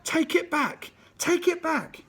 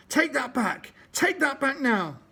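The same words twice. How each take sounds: First: Far higher, full-out raging bellow. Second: Higher, louder furious demand; yelling. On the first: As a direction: bellow it, lost in a red fog of rage. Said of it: "went on bellowing". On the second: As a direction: yell it at him with fists flying. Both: Acted.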